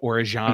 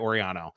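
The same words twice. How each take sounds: First: The name has an Argentinian Spanish pronunciation. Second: The name has a regular Spanish pronunciation. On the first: This is the original way of saying the name. "Is maybe even the correct way" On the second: This is the way the player prefers. "I've heard that he goes by Orellano"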